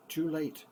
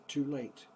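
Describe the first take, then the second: No difference in how they are said.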